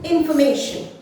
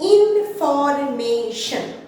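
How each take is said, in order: First: The word is said smoothly without breaks. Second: The word is split into separate syllables. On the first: "এটাকে আমরা fluently কিভাবে বলবো?" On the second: "যারা beginners তারা কিভাবে ভাগ করবে? ... চারটে সিলেবল রয়েছে।"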